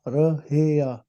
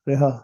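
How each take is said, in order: First: The word is pronounced as rahia. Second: The word is pronounced as riha. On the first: The speaker calls it right. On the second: The speaker calls it wrong.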